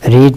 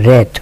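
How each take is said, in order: First: The vowel is long, like 'reed'. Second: The vowel is short, like 'red'. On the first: It is the present form. "রিড মানে পড়া" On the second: It is the past form. "এর পাস ফর্মের উচ্চারণ কিন্তু রেড"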